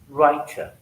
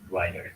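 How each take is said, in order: First: The middle consonant is a clear T sound. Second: The middle consonant sounds like a D. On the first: "British speaker will pronounce this word as writer"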